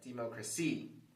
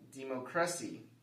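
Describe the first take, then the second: First: The stress is on the fourth syllable. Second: The stress is on the third syllable. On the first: "If we stress the fourth syllable" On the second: "If we stress the third syllable"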